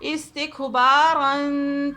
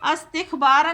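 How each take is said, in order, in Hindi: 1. शब्द एक i स्वर से शुरू होता है। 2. शब्द एक a स्वर से शुरू होता है। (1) "अलिफ को भी हम कसरा देकर" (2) "अस्तिखबारा नहीं पढ़ेंगे"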